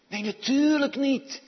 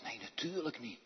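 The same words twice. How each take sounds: First: Loud, high, forceful dismissal; emphatic denial. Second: Hushed aside. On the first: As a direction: throw it out strongly, at raised voice. Emphatic rejection of whispering. (luid en stellig ontkennend) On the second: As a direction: drop it softly, half whispered. Hushed aside after whispered demo. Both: Real, not acted.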